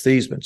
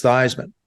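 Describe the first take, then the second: First: "Theismann" said THEES-man, long e as in "see"; "Theismann" rhyming with "geese-man"; Thees-man pronunciation. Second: "Theismann" said THIGHS-man, long i as in Heisman; "Theismann" with the vowel of "eye"; Thighs-man pronunciation. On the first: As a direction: say "Theismann" with an ee sound. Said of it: "No, no, it's Theismann". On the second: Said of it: "Actually, that his name is pronounced". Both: Retold or imitated.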